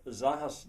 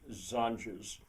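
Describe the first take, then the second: First: The word is pronounced the Spanish way. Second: The word is pronounced the English way. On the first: "would be the Spanish" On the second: "I pronounce it as if it were English"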